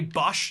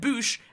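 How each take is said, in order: First: The vowel sounds like the one in hush. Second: The vowel sounds like the one in boot. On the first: "like pronounced it exactly how it's written" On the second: "that U is pronounced oo"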